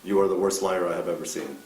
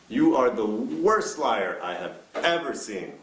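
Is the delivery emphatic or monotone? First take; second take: monotone; emphatic. First: It is said flatly in a monotone. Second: Certain words are stressed with lively emphasis. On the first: The statement comes across as weak. The speaker calls it wrong. "saying this in a monotone voice" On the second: The statement comes across as powerful. The speaker calls it right. "emphasize certain words"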